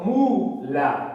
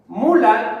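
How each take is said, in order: First: Mula broken into a long MU, then la; syllable by syllable. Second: Said in the usual way. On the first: Shown as a demonstration. Teacher proving the word is grave, Mula split as MU, la. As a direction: sound out Mula in two parts, MU held. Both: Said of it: "Es grave".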